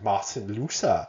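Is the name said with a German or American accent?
German. It is said with a put-on German accent.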